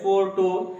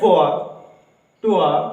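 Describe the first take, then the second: First: The final r sound is pronounced. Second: The final r sound is silent. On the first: The speaker calls it wrong. "तो ऐसा नहीं होगा" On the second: The speaker calls it right. "आर तो ऐसे नहीं बोला जाएगा"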